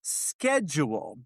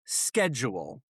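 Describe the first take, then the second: First: Schedule drawn out with sh at the start; British schedule. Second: Schedule said with a hard sk, SKED-jool; schedule with an American sk sound. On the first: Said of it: "I don't want to sound like Sean Connery". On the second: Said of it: "I'm gonna present the word". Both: Shown as a demonstration.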